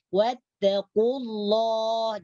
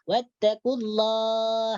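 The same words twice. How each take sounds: First: The L in Allah is heavy and dark. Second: The L in Allah is thin and light. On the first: The speaker calls it right. "Jadi ini ditebalkan" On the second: The speaker calls it wrong. "Jangan sampai dibaca tipis... itu salah"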